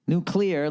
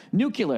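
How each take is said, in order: First: Nuclear said nook-lee-er, clear ending; his preferred Nuclear, nook-leer; nuke-lee-er. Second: Nuclear said nuke-yuh-ler, rolled middle; Nuclear as nook-yuh-ler with a roll; nuke-you-ler. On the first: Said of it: "I like nuclear". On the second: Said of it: "a little shoulder roll in there". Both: Shown as a demonstration.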